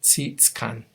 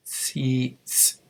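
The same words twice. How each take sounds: First: "Tsitskan" said carefully, ts sharp; model word. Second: "Tsitskan" repeated, clipped short; model word repeated. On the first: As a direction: pronounce "Tsitskan" with a crisp ts. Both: Shown as a demonstration. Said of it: "the word for blanket is tsitskan".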